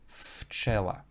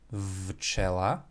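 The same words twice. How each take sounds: First: The first consonant is unvoiced, like f. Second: The first consonant is voiced, like v. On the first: The speaker calls it right. "it will be pronounced včela" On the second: The speaker calls it wrong. "will not be pronounced včela"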